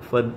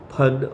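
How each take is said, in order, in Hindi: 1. यह f ध्वनि से शुरू होता है। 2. यह एस्पिरेटेड p-h ध्वनि से शुरू होता है। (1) "जो हुनर है" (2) "जैसे सांप का फन होता है"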